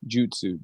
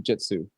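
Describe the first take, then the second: First: The first vowel is a 'u' sound. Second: The first vowel is an 'i' sound. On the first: This is the original Japanese form. The speaker calls it right. "actually jutsu" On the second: This is the English, fast-speech version. The speaker calls it wrong. "So we just say jitsu with an I"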